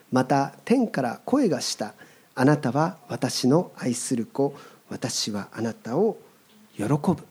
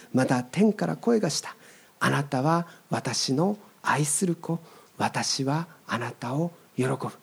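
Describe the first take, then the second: The two takes are said the same way.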